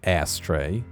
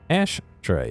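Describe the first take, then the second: First: The word is said with a plain 's' sound. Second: The word is said with an 'sh' sound. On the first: The speaker calls it wrong. "not ashtray" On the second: The speaker calls it right. "I say ashtray, There's an H in there"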